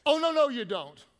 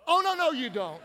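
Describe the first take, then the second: First: Loud, high sassy 'Oh, no, no, you don't'; sassy attitude. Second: High, loud sassy refusal; sassy attitude. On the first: Pastor showing church how to refuse gossip with attitude. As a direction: give it full attitude. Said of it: "You gotta start it off like this". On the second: Congregation practicing a sassy refusal on count of three. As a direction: snap it with attitude. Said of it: "Practice with me". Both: Shown as a demonstration.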